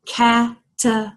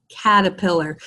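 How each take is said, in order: First: "Caterpillar" broken into four separate beats with gaps; syllable by syllable. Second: Said in the usual way. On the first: Shown as a demonstration. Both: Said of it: "how many syllables do we hear".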